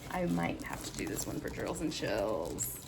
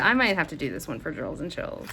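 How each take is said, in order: First: Low, musing repeat. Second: Said in the usual way. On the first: Real, not acted. Repeats it slowly to herself.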